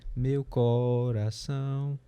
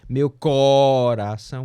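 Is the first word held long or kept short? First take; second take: short; long. First: The syllables flow evenly and naturally. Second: The first word is held long. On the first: The speaker calls it right. "Não é assim que funciona, é meu coração. Natural, fluxo natural" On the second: The speaker calls it wrong. "Se fosse tempo, prolongamento do tempo forte seria"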